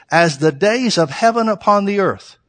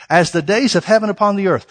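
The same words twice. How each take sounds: First: Slowed, weighted delivery with the stress on heaven; slow emphatic reading. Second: Said in the usual way. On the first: Shown as a demonstration. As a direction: lean on heaven and take it slowly. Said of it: "repeats the verse line for weight". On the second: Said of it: "plain repeat after emphatic reading".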